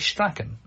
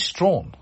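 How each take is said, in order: First: The name is said with two syllables. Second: The name is said as one syllable. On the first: This is how the name is said in Ireland. "we would always say Strachan, as Gordon would have" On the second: This is how the company says its own name. "but it is Strawn"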